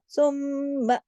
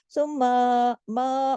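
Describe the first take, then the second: First: सुम्मा with a long hummed म्म; big nasal hold. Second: सुम्मा ending in a long open मा; over-opened ending. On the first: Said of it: "गुन्ना". (सुम्मा, बड़े गुन्ने के साथ) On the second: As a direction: open मा wide as the mistake. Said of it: "उसमें मुंह नहीं खोलना, आ नहीं करना". (सुम्मा, मा को आ करके) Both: Shown as a demonstration.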